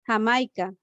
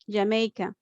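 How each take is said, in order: First: It is pronounced the Spanish way. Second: It is pronounced the English way. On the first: "We have the example with ha" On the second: "How is Jamaica in English?"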